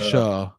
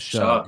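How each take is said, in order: First: The name ends on the vowel, no consonant. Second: The name ends with a g sound. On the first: "or Shuh" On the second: "I thought it was Shug"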